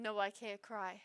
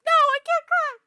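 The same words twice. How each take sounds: First: Said in the usual way. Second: "no, I can't cry" cried out high and very loud; anguished shout. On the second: Real, not acted. Drunk and upset about the post, an anguished wail. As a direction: wail it out, fighting the tears.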